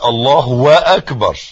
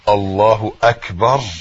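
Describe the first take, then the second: First: A w sound comes before akbar. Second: No w sound comes before akbar. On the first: The speaker calls it wrong. "ما بقولش الله واكبر" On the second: The speaker calls it right. "قلتها صح"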